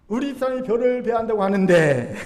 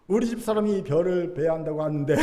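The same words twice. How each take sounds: First: Louder, higher hammed-up hint; indirect Chungcheong villager. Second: Understated hint left hanging; indirect Chungcheong villager. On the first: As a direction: push the hint louder, swelling through the ending. (크게 강조한 충청도식 간접 화법) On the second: Acted. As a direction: drop the hint casually, trailing the ending. (넌지시 흘리는 충청도식 간접 화법) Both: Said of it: "충청도식 간접 화법".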